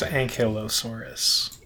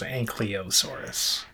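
First: The middle syllables sound like 'kylo'. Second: The middle syllables sound like 'koly'. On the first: The speaker calls it right. "I think it's Ankylosaurus" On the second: The speaker calls it wrong. "I had the Y and L transposed"

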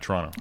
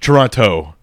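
First: The second T is silent. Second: The second T is clearly pronounced. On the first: The speaker calls it right. "They don't pronounce the second T. It's silent" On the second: The speaker calls it wrong. "It's not Toronto"

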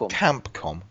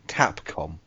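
First: The first syllable does not sound like 'cap'. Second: The first syllable sounds like the word 'cap'. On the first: The speaker calls it wrong. "Not Capcom" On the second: The speaker calls it right. "Like Capcom. A hat"

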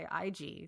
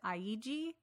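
First: The name has no extra syllable added. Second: The name has an extra syllable added. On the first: The speaker calls it right. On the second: The speaker calls it wrong.

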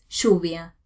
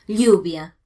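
First: The double L is said the Buenos Aires way. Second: The double L is said the Spanish way.

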